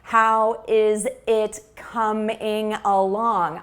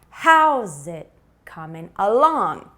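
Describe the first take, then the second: First: Every word gets the same flat, equal stress. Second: Only some words are stressed, others are reduced. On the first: The speaker calls it wrong. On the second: The speaker calls it right.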